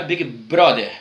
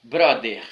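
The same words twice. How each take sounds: First: Brother: o th soa como d; th heard as d. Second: Brother said "bróder", the th close to d; th heard as d. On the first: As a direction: say Brother with a d sound, as Brazilians hear it. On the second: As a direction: repeat brother with a d-like th. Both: Shown as a demonstration. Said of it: "Todo mundo ouve der".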